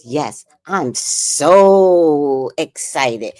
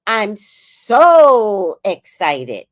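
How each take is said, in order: First: Slow, drawn-out mock of fake enthusiasm; mocking phony excitement. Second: Slow, drawn-out phony excitement; fake excitement. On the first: Grandson mocking grandma's fake excitement, slow and drawn out. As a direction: parody grandma's phony thrill. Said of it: "that sounded real phony". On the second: Grandma on the phone with grandson, slow fake excitement. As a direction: stretches each word to sound thrilled on the phone. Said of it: "So my voice was like".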